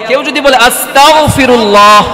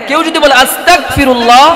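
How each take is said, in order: The two takes are said the same way.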